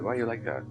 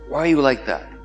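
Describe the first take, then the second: First: It is said in a curious tone. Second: It is said in an accusing tone.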